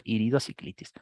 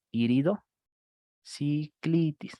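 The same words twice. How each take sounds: First: Said in the usual way. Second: Iridociclitis drawn out very slowly, each syllable separate. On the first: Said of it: "inflamación del iris y cuerpo ciliar". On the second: Shown as a demonstration. Teacher to students, spelling out the term very slowly. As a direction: stretch out Iridociclitis so students catch every part. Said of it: "Y ahí lo sacas".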